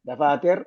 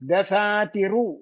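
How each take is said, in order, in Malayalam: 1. അവസാന സ്വരം ഒഴിവാക്കുന്നു, വ്യഞ്ജനത്തിൽ അവസാനിക്കുന്നു. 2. അവസാന സ്വരം പകുതി മാത്രം, നേരിയതായി ഉച്ചരിക്കുന്നു. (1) "ദഫാതിർ എന്ന് പറഞ്ഞ വേറെ നിയമം" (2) "പകുതി പറഞ്ഞിട്ടുള്ള വേറെ നിയമമാണ്"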